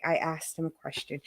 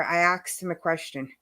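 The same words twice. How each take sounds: First: "asked" with s before k, no "axed"; softer, lower, careful "asked"; corrected "asked". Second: "asked" said as "axed", New York way. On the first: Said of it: "so I don't say asked anymore". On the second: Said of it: "like, every New Yorker". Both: Shown as a demonstration.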